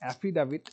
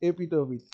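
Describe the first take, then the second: First: It is said like 'affidavit' with f and d. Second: It is said like 'epitopit' with p and t. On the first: This is the standard pronunciation. The speaker calls it right. "This is অ্যাফিডাভিট।" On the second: This is a rural mispronunciation. The speaker calls it wrong. "অ্যাফিডাভিটকে অনেকে এপিটোপিটো বলে জানো। ... আসলে এটা এপিটোপিট নয়।"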